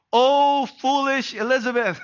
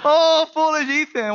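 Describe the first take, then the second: First: A higher, louder mock-exasperated Oh, foolish Elizabeth; hammed-up parental exasperation. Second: A higher, louder, hammed-up Oh, foolish Ethan; mock despair at your son; playful parental sigh turned into a cry; exasperated parent. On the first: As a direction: playfully throw up your hands at your daughter. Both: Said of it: "I wanna say".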